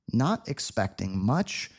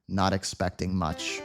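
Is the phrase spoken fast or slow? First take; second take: slow; fast. First: It is spoken slowly and carefully. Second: It is spoken quickly, at natural speed. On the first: "at our slow speed" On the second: "Native speed"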